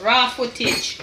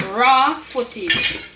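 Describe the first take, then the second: First: Said in the usual way. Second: Raw footage drawn out slowly and louder; slow emphatic repeat. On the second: Shown as a demonstration. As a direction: lean on raw footage, stretch it out.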